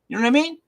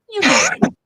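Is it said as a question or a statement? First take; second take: question; statement. First: It is said as a question. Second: It is said as a statement.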